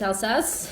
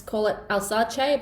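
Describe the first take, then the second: First: "Alsace" said the proper French way; "Alsace" at normal pace, corrected; corrected pronunciation. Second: "Alsace" said slowly, in the tried first way; "Alsace" drawn out, the mistaken version; wrong pronunciation. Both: Shown as a demonstration. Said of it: "but apparently it's Alsace".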